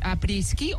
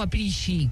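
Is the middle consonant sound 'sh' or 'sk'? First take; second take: sk; sh. First: The middle consonants sound like 'sk'. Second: The middle consonant sounds like 'sh'. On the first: "Com es pronuncia?" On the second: "Com es pronuncia?"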